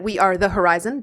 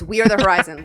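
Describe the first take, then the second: First: The words are spaced apart with small pauses. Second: The words are run together quickly as one. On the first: It is said clearly so each word is heard. "That just sounded like there were, but it's all one" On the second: It shows the name is one unbroken word. "you don't want to say it that fast though"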